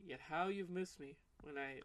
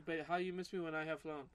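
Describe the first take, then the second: First: Slow, soft demo with "you've" leaning out; slower model reading, stressing "you've" in the phrase; suggested corrected reading. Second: Imitated riddle reading at normal pace, "how" leading; imitating odd reading. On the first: Shown as a demonstration. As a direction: show how it should go, slowly, weight on "you've". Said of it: "I think it should be like". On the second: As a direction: mimic the confusing reading, running "But how you miss me when I have flown" as one phrase. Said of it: "you said it like".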